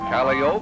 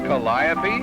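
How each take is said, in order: First: It is said with the circus people's pronunciation. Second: It is said with the ordinary pronunciation.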